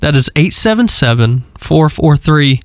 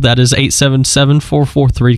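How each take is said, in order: First: It is said a little more slowly. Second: It is said at a normal pace.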